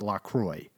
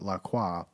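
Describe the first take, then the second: First: The name is pronounced in an Americanized way. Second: The name is pronounced the French way. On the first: "but it's pronounced LaCroix" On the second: "we want to be like Perrier and call it LaCroix"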